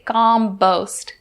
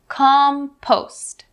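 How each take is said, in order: First: The first sound is soft, like a b. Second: The first sound is a strong, breathy p. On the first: The speaker calls it wrong. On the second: The speaker calls it right.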